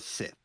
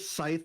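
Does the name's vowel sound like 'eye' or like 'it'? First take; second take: it; eye. First: The vowel sounds like the short 'i' in 'it'. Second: The vowel sounds like the 'eye' in 'scythe'. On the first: "It is either Scythe or Sith" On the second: "It is either Scythe or Sith"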